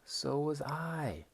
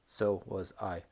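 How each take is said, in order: First: The voice rises with lively energy. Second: The voice stays flat and dull. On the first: The speaker calls it right. "It really goes up" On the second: The speaker calls it wrong. "재미없어요. 심심해요"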